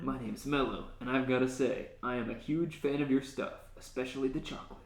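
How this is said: It is said in an edgy, cool tone.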